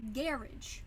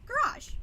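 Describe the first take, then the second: First: Garage stressed on the first syllable, GARR-idge, with a hard j ending; British Garage, GA-ridge; Garage as GARR-ij, stress up front; British pronunciation. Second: American Garage, ga-RAHZH, said high and bright; Garage as guh-RAHZH, stress at the end; American pronunciation. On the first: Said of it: "How did the Brits pronounce it?". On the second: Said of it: "How do we pronounce it in America?". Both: Shown as a demonstration.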